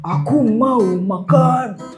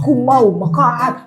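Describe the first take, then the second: First: The phrase is said at a slower pace. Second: The phrase is said at a faster pace.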